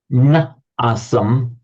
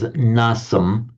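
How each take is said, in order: First: "Na asam" said slowly as two separate words, na then asam; na and asam kept apart. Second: "nasam" said as one fused word, na-sam run together; na and asam joined. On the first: Teacher showing the unjoined form before sandhi, slow and separated. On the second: Teacher showing the sandhi-joined form, one smooth word. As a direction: blend "nasam" into a single word. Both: Shown as a demonstration. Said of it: "which by Santhi, of course, becomes nasam".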